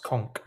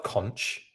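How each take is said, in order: First: "conch" ending in a hard K; "conch" rhyming with "honk"; hard K pronunciation. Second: "conch" ending in a soft CH; "conch" pronounced "kontch"; spelling pronunciation. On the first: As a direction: say "conch" like "conk". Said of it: "I believe it's pronounced conch". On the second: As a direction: say "conch" as spelt, with CH as in "church". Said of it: "I know it's spelt conch". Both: Shown as a demonstration.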